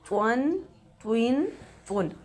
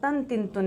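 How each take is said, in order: First: The t sound is full and heavy. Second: The t sound is thin and light. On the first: The speaker calls it right. "त्वा को पुर अदा करेंगे" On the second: The speaker calls it wrong. "नहीं पढ़ेंगे"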